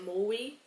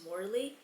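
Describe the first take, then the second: First: The R sound becomes a W-like sound. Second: The R sound is pronounced clearly. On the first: "I would pronounce my R's like a little child" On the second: "my last name is Morley"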